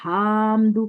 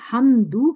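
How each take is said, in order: First: The first vowel is drawn out long. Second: The first vowel is short. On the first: The speaker calls it wrong. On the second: The speaker calls it right.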